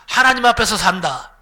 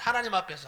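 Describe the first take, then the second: First: 하나님 앞에서 산다 called out loudly, 하나님 stressed with a falling end; loud call-and-response. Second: Said in the usual way. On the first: Shown as a demonstration. Preacher leading the congregation to repeat, loud and laughing. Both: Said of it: "한번 따라합시다".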